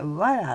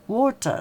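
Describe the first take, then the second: First: The T sounds like a quick flapped R. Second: The T is pronounced clearly as a T. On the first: "アメリカだとウォーターをね、water って言いますね。water あのT がね、ラリルレロになっちゃうからね。" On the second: "イギリスだとね、これがウォーターウォーターって言いますね、はっきりね。"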